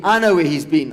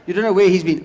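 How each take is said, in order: First: "I know", firm contrast with "You"; stress on I. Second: "You don't know", pitched above the answer; stress on YOU. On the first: Comedian to audience about the wandering cat, stress on "I". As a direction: lean on "I", knowing and lower. Knowing answer to preceding line. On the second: Comedian to audience about the wandering cat, stress on "You". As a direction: lean lightly on "You" against "I". Contrasts listeners' ignorance with his own. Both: Shown as a demonstration.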